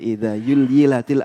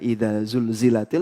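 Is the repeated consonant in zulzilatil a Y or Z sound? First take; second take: Y; Z. First: The word is said with a y sound. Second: The word is said with a z sound. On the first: The speaker calls it wrong. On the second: The speaker calls it right.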